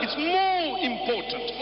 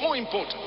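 First: Slow, with "more" leaned on and drawn out; slowed, emphatic "more" on a raised line; stress on more. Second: Said in the usual way. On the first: Shown as a demonstration. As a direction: weigh each word of "It's more important".

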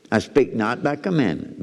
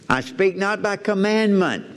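First: Said in the usual way. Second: High, slow, solemn reading; scripture reading. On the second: Acted. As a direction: read it like holy writ, slowly.

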